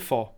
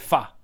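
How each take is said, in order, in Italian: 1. La parola finisce con una vocale simile alla o. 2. La parola finisce con una vocale simile alla a. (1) "nel nord si dice pho" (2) "A Hue l'ho sentito pronunciare fa"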